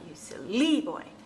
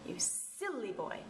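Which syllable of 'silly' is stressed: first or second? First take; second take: second; first. First: The stress is on the second syllable of silly. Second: The stress is on the first syllable of silly. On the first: The speaker calls it wrong. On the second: The speaker calls it right. "So that's the first syllable again"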